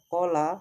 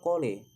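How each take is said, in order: First: The final vowel is a plain open 'a'. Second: The final vowel is tilted toward 'e'. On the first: "yang seharusnya kola" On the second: "lamnya diimalahkan menjadi le"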